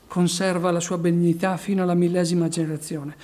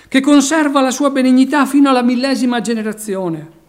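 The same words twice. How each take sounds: First: Said in the usual way. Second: Loud, ringing proclamation of the verse; proclaimed loudly. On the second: Acted. Preacher proclaiming the verse to the church, loud and ringing. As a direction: preach the line out to the back row.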